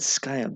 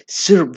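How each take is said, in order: First: The word is said without an R sound. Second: The word is said with an R sound. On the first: The speaker calls it wrong. "not sky up. There's an R there" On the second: The speaker calls it right. "syrup village"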